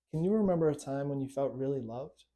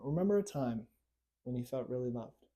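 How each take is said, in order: First: Said in the usual way. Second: Softer, calm coaching voice; soft guided prompt to recall being loved; gentle guiding invitation. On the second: Shown as a demonstration. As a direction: invite them gently into the memory. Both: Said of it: "I want you to do that for a moment".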